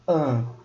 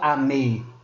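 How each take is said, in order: First: The m merges into one nasal vowel. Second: The m is said as a separate syllable. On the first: The speaker calls it right. "a gente fala an" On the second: The speaker calls it wrong. "A gente não fala ame"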